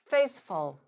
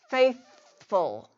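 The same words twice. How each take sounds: First: The word is said at normal conversational speed. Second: The word is said slowly and drawn out.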